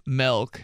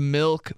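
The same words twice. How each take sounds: First: "milk" said as "melk"; mispronounced milk. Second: Said in the usual way. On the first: Shown as a demonstration. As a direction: open the vowel of "milk" to eh. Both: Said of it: "Instead of milk".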